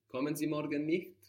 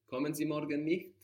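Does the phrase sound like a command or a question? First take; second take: question; question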